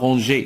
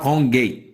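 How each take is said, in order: First: The g is a soft zh sound. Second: The g is a hard g sound. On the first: The speaker calls it right. "باش ننطقوها رونجي" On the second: The speaker calls it wrong. "سينون راه غتقرا رونغي"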